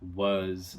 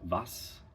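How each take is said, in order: First: The word ends in a voiced consonant. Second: The word ends in a voiceless consonant.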